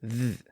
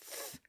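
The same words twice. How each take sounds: First: The th sound is voiced, with buzzing. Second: The th sound is voiceless, without buzzing. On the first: "The second is the voiced sound" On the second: "The first is the voiceless sound"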